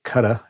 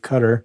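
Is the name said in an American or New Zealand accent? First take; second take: New Zealand; American. First: The name is said in a New Zealand accent. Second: The name is said in an American accent.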